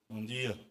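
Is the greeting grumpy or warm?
grumpy. It is said in a sour, grumpy way.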